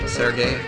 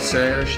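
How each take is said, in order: First: The name ends with an added 'ee' sound. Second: The name ends without an added 'ee' sound. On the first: The speaker calls it wrong. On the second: The speaker calls it right.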